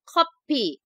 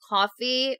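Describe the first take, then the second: First: The word is said with a p sound. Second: The word is said with an f sound. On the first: "coffee in Korean is 커피. There's no F F pronunciation" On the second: "same in Korean and English"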